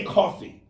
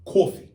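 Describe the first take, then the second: First: "coffee" with an ordinary New York vowel; usual New York coffee. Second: "coffee" with a heavy, rounded "caw" vowel; hard New York coffee. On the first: Host comparing accents, "coffee" in ordinary New York style. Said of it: "some New Yorkers go hard on the coffee". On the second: Host showing strong New York accent, "coffee" said hard. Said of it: "go hard on the". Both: Shown as a demonstration.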